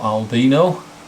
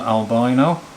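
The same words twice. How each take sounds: First: It is said in a British accent. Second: It is said in an American accent. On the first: "or from the U K" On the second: "depending upon whether you're from the U S"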